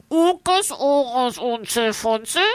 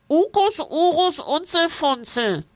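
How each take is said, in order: First: Pinched nose, high voice. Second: High voice through the nose; nasal creature voice. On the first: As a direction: hold your nose and repeat. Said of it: "Er hält sich die Nase zu und wiederholt". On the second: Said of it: "Es spricht durch die Nase". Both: A narrator's reading.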